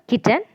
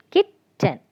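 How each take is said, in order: First: Said in the usual way. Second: "Kitten" broken as kit, pause, ten; split into syllables. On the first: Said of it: "Kit is the first syllable". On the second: Shown as a demonstration. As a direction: say "Kitten" in two separate beats, kit and ten. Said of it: "ten, second syllable".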